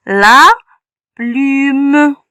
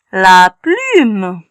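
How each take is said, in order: First: "La plume" split, each part stretched; sounding out. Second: Said in the usual way. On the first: Shown as a demonstration. Teacher blending the word for children, drawn out. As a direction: pull "La plume" apart slowly.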